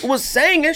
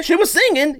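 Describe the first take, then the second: First: "singing" said high as "SANG-in"; emphatic sangin'. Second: Said in the usual way. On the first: Shown as a demonstration. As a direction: open the first vowel of "singing" to "sang". Contrasts sangin' with plain singing.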